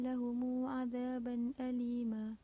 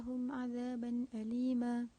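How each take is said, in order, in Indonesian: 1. Lahum berakhir dengan vokal u panjang tambahan. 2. Lahum berakhir dengan m tertutup, tanpa vokal tambahan. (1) "qalun dengan silah mim jamak" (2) "qalun dengan iskan min jamak pada kalimah lahum"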